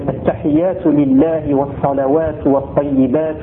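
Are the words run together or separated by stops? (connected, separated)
connected. Words run together with final vowels pronounced. "en faisant cette fois les liaisons, en ne m'arrêtant pas aux endroits où je me suis arrêté, en prononçant les voyelles"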